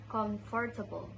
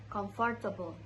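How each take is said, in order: First: The first part is said as full 'comfort'. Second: The first part is said as full 'comfort'.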